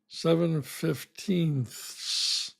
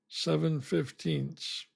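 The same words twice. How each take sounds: First: The th sound before the final s is pronounced. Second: The th sound before the final s is dropped. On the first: "I would pronounce it fifteenths, which is terrible" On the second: "throwing away the T H and just saying seven fifteenths"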